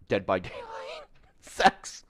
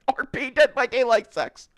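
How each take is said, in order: First: Half-whispered through a laugh; laughing under the breath; breathy laughing aside. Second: High, loud disbelieving squeal; shrieking the phrase in disbelief; incredulous squeal. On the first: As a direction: mutter it while laughing. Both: Real, not acted.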